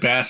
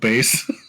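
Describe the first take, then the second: First: It is pronounced like the fish name. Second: It is pronounced like the deep voice word. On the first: It names a type of fish. The speaker calls it wrong. "you said bass" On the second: It names a deep, low voice. The speaker calls it right. "instead of bass"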